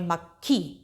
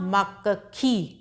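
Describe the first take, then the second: First: The k sounds are joined quickly together. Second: A full vowel splits the k sounds apart. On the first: The speaker calls it right. "उसको जल्दी से बोलेंगे" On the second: The speaker calls it wrong. "मक्खी ऐसे नहीं बोलते हैं"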